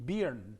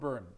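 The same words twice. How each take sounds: First: The name is read with a Russian-style pronunciation. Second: The name is said with an English pronunciation. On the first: "if you were to pronounce it in Cyrillic" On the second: "but it's Robert Byrne"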